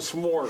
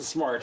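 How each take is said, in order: First: The vowel sounds like the one in four. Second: The vowel sounds like the one in car. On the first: The speaker calls it wrong. "You don't pronounce sm- Smort" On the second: The speaker calls it right. "I still pronounce it Smart"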